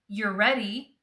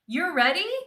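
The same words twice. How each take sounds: First: The voice does not rise at the end. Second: The voice goes up at the end. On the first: It is a statement. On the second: It is a yes-or-no question.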